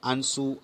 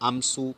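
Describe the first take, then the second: First: The vowel is nasal with no m consonant. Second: A full m consonant comes before the s. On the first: The speaker calls it right. "જ્યારે આંસુમાં સ્વર પોતે જ નાસિક્ય" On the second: The speaker calls it wrong. "આમસુ નથી હોતું"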